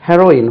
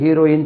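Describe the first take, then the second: First: The first vowel is a short e sound. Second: The first vowel is a long ee sound. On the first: The speaker calls it right. "ரெண்டுமே ஒரே உச்சரிப்பு தான்" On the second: The speaker calls it wrong. "எல்லாமே ஹீரோயின் ஹீரோயின் சொல்றீங்களே"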